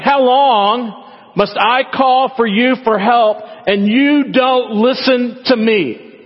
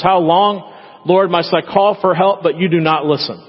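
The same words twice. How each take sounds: First: High, slow, drawn-out whine at God; sassy complaint. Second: Said in the usual way. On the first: Retold or imitated. Habakkuk whining at God, high and slow. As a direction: stretch every word like a sulking child. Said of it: "That's pretty sassy words". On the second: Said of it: "He says".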